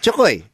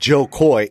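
First: The name is said with a Filipino accent. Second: The name is said with a plain American accent. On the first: This is how an old Filipino aunt says the name. "That's how she says it" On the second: This is how the name is normally said. "isn't the way I say it"

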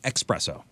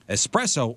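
First: The word starts with a k-s sound before the p. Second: The word starts with an s sound, no k. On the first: The speaker calls it wrong. "There's no X" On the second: The speaker calls it right. "Espresso is the correct way to say it"

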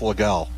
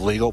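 First: It is said in the local form of the name. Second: It is said like the English word legal. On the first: This is how the town's name should be said. The speaker calls it right. "for future references, let's go with legal" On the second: This is how the name was just said on air. The speaker calls it wrong. "Instead of legal"

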